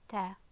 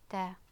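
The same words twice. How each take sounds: No difference in how they are said.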